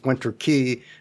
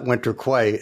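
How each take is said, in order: First: The last word sounds like 'key'. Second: The last word sounds like 'kway'. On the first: The speaker calls it right. "I realized it was Winter Key" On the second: The speaker calls it wrong. "not Winter Quay, as I've been saying"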